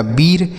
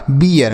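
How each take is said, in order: First: बीर said with a long ee and no glide, the common mistake; wrong long-ee reading. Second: बियर said in two beats, ee gliding into a short a before r; correct ee-a glide. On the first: Teacher shows children the mistaken reading, बीर with a long ee. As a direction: read बीर as one long ee vowel, wrongly. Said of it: "नहीं बच्चों, इस तरीके से आपको नहीं पढ़ना है". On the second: Teacher gives children the correct reading बियर, ee into a. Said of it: "तो यह सही उच्चारण होगा बियर". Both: Shown as a demonstration.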